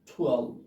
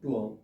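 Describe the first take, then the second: First: The t is strongly aspirated. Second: The t is plain and unaspirated. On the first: The speaker calls it right. "টি এর উচ্চারণটা ঠয়ের উচ্চারণ হবে" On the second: The speaker calls it wrong. "আমরা আগে বলতাম কি টুয়েলভ"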